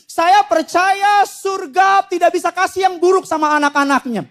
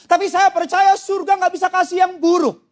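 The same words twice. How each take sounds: First: "Saya percaya surga" proclaimed high, each phrase driven home; emphatic repeat. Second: Said in the usual way. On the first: Real, not acted. Preacher repeats his belief to congregation, emphatic proclamation. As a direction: declare "tidak bisa kasih yang buruk" with full preaching weight. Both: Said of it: "saya ulang sekali lagi".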